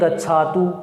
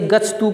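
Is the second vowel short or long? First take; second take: long; short. First: The second syllable has a long vowel. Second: The second syllable has a short vowel. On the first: The speaker calls it wrong. "बोल देते हैं गच्छातु" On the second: The speaker calls it right. "जैसे गच्छतु को"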